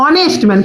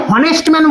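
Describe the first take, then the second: First: "অনেস্ট ম্যান" opening on the vowel O; silent H. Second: "হনেস্ট ম্যান" with an audible H first; wrongly sounded H. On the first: Teacher showing what is really said, "অনেস্ট ম্যান" with silent H. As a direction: say "অনেস্ট ম্যান" dropping the H completely. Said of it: "কি বলছি আমি?". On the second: Teacher asking if this is what was said, "হনেস্ট ম্যান" with sounded H. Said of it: "আমি কি উচ্চারণটা করছি যে". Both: Shown as a demonstration.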